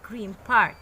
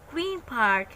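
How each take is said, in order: First: Green ends with an m sound. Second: Green ends with a clear n sound. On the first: "become m sound" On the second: "one word in the sound n"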